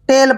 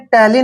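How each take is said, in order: First: The word ends on the 'l' consonant. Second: The word ends with an added 'ee' vowel. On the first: The speaker calls it right. "टेल पढ़ेंगे" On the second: The speaker calls it wrong. "आपने टैली नहीं पढ़ना है"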